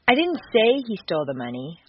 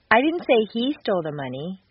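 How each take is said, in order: First: The stress is on the word say. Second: The stress is on the word he.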